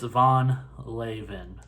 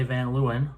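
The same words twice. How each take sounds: First: "Von Leeuwen" slowly and carefully, "Von" with an open o and "Leeuwen" as LAY-ven; carefully sounded-out Dutch "Von Leeuwen"; Dutch pronunciation. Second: "Van Leeuwen" said the American way, "Van" with a flat a like van and "Leeuwen" as LOO-en; plain Americanized "Van Leeuwen"; American pronunciation. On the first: Showing viewers the Dutch way to say "Von Leeuwen", slow and careful. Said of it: "If you're in the Netherlands". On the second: Telling viewers how Americans can say "Van Leeuwen", Americanized. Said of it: "it says if you're in America".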